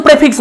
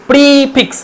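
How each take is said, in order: First: "প্রেফিক্স" with short e; short open e in "প্রেফিক্স"; Indian English pronunciation. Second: "প্রিফিক্স" with a drawn-out ee; teacher's stretched "pree" in "প্রিফিক্স"; RP long vowel. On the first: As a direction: say "প্রেফিক্স" starting with a short "pre". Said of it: "আমরা প্রেফিক্স তো বলি সবাই". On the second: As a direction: hold the first syllable of "প্রিফিক্স" long. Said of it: "এটা long হবে". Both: Shown as a demonstration.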